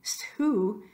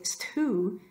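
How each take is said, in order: Both takes have the same delivery.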